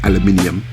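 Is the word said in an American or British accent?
British. It is said with a British pronunciation. "we know it's pronounced aluminium"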